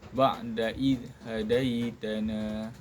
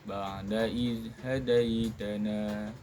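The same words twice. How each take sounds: Both takes have the same delivery.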